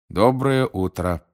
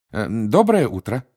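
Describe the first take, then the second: First: Slow, drawn-out good morning; Muggle's reply. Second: Higher, louder, friendly hello; friendly greeting. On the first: The Muggle answers the newcomers at his door, slow reply. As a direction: answer slowly, with less lift. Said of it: "отвечал магл". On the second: Mr Weasley greets the Muggle at the door, friendly. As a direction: greet a stranger politely, lifting the pitch. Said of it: "приветливо произнёс мистер Уизли". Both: A narrator's reading.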